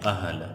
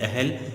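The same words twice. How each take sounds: First: The h and l are joined without vowel. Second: A vowel separates the h and l sounds. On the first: The speaker calls it right. "हे और लाम दोनों साकिन है" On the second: The speaker calls it wrong. "जबकि अहल लफ्ज़ गलत है"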